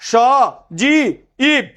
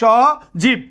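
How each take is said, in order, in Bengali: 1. স্বরধ্বনিগুলো আলাদা আলাদা অক্ষরে ভাগ হয়ে যায়। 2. স্বরধ্বনিগুলো মিশে একটি অক্ষর হয়ে যায়। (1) "তুমি কি বলবা স জি ইব, এরকম বলবা? নো" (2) "তুমি বলবা স জীব"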